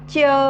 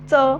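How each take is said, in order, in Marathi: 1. हा तालव्य ध्वनी आहे, यात य-ग्लाईड आहे. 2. हा दंततालव्य ध्वनी आहे, यात य-ग्लाईड नाही. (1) "यामध्ये जो य लागत आहे" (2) "तर हा उच्चार करत असताना लक्षात घ्या त्यावेळेस अ लावल्या जातोय"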